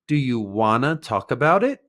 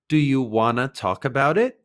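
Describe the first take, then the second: First: "Want to" is blended quickly into "wanna". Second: The same.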